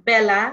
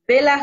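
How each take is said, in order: First: বেলা with open e, "bæla"; correct pronunciation. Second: বেলা with closed e, "bela"; wrong pronunciation. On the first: Teacher correcting with the right বেলা. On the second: Teacher showing the wrong বেলা. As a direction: say বেলা with a tight e. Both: Shown as a demonstration. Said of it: "বেলা হবে না".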